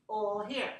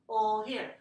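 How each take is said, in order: Both takes have the same delivery.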